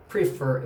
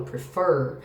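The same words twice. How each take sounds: First: "prefer" stressed on the first syllable, PRE-fer; "prefer" mis-stressed as PRE-fer; wrong syllable stressed. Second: "prefer" stressed on the last syllable, pre-FER; "prefer" said as pre-FER, second syllable strong. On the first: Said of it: "na palavrinha prefer é a segunda que é a tônica". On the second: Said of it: "é a segunda que é a tônica". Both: Shown as a demonstration.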